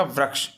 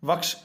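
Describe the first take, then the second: First: वृक्ष said with a clear "vri" ri sound; वृक्ष as vruksh, ri sign restored; corrected spelling. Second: वक्ष said as "vaksh", no ri sound; वक्ष with the ri sign missing; misspelt form read out. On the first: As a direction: give वृक्ष its ri: vriksh. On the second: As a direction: read the wrong spelling वक्ष plainly as vaksh. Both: Shown as a demonstration. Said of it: "तो इसमें हो जाएगा वृक्ष".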